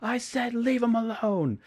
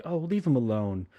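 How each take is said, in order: First: High, loud, slow imitated shout; angry yell. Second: Lightly voiced, tired brush-off; mild annoyance. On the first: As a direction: bellow it out as a furious order. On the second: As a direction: say it as a weary, mild plea. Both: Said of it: "Sean's just like".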